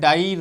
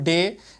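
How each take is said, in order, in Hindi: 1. स्वर 'eye' जैसा बोला जाता है। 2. स्वर 'ay' जैसा बोला जाता है। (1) "इनको जो है डाई राई साई नहीं पढ़ते हैं" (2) "इनको डे रे या से पढ़ते हैं"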